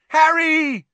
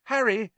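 First: Loud, very high drawn-out holler; yelling his name. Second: High-pitched call of a name. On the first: Friends waving frantically at Harry, yelling his name. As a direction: yell for a friend far down the street. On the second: Friends hailing Harry across the street, calling out. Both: A narrator's reading. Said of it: "someone yelled his name".

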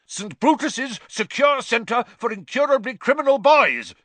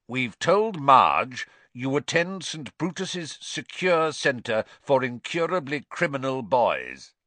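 First: Panicked bellow, much higher and louder. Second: Slow, raised stern uncle voice. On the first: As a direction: roar the name out in a panic. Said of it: "bellowed Uncle Vernon". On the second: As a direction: lay down the lie slowly, high and firm. Vernon announcing the cover story. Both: A narrator's reading.

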